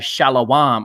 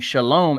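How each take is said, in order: First: The middle vowel is drawn out as 'awa'. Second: The middle vowel is a plain single 'a'. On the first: "they pronounce" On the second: "the popular greeting Shalom"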